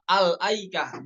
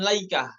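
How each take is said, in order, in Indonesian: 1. Dimulai dengan 'al' lalu hamzah. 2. Dimulai dengan 'la' dan tidak ada hamzah. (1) "ibtida dengan membaca fathah pada hamzahnya" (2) "bukan laikah"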